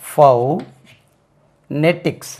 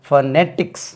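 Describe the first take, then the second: First: The first syllable has a full 'oh' vowel. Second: The first syllable has a weak, short vowel. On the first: "you can add this sound ஃபவ்" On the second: "ஒன்று வந்து ஃபனெட்டிக்ஸ், stress lies on the second syllable"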